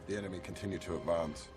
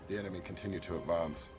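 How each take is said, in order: The two takes are said the same way.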